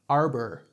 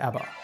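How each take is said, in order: First: The R sound is strongly pronounced. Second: The R sound is dropped, British-like. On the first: "articulate my R" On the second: "it kind of sounds like an American trying to sound like a British person"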